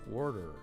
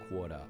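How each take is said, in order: First: It is said in an American accent. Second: It is said in an Australian accent.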